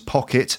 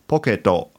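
First: It is said with a plain English accent. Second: It is said with a Japanese accent. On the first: "the English words pocket" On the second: "if you say that with a Japanese accent, sounds like poketo"

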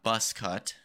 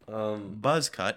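First: The first word ends with a hissing s sound. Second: The first word ends with a buzzing z sound. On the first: The speaker calls it wrong. "not bus cut" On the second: The speaker calls it right.

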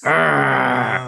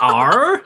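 First: It is said with a fierce growl. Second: It is said tentatively, like a question.

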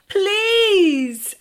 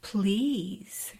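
First: It is said with more passion and energy. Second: It is said in a sexy, sultry voice.

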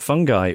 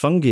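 First: The word sounds like 'fun guy'. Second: The word does not sound like 'fun guy'. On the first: The speaker calls it wrong. "and not fungi, which ruins that old kid's joke" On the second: The speaker calls it right. "it's pronounced fungi"

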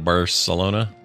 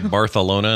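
First: The c is said as an s sound. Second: The c is said as a th sound. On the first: This is how English speakers say it. "instead of Barcelona" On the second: This is how people in Spain say it. "how the Spanish say Barcelona"

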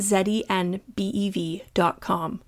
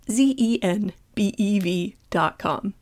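First: Z is said as zed, non-American style. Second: Z is said as zee, American style.

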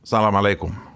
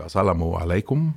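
First: The greeting is said quickly and clipped. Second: The greeting is said in full, unhurried. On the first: The speaker calls it wrong. "så då blir det bara salam alaikum. Snabbt så här" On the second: The speaker calls it right. "det vanligaste är ju assalamu alaikum"

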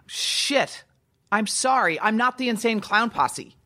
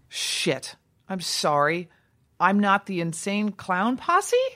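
First: It sounds defiant. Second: It sounds like a question.

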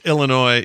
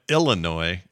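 First: The stress falls in the usual place. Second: The stress falls in an unusual place. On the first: The speaker calls it right. "it's usually Illinois" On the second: The speaker calls it wrong. "but you went Illinois. Like, it's just there was a weird emphasis"

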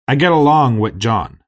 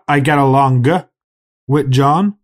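First: The G in along is soft and linked. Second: The G in along is hard and separate. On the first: The speaker calls it right. "notice the soft G pronunciation" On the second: The speaker calls it wrong.

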